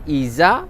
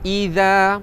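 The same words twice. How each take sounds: First: The middle consonant is a plain z sound. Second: The middle consonant is a voiced th sound. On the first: The speaker calls it wrong. "iza salah" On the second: The speaker calls it right. "Sebab dia zal"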